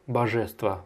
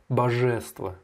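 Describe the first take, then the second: No difference in how they are said.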